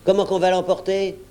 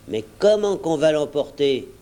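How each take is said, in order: First: Higher-pitched, scornful repeat of the question; exasperated mimicking retort; indignant echo. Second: Mildly challenging question; a touch of sceptical pushback; objecting. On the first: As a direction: throw his question back at him. Silver throws George's question back. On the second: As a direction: put it as a doubting objection. George objects to Silver's plan. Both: A narrator's reading.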